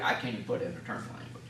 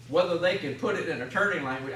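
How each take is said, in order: First: Fast, softer, lower self-mocking aside; quick quiet aside. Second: Said in the usual way. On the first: Shown as a demonstration. Speaker to the audience, a quick low self-deprecating aside. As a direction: toss "attorney language" off under your breath.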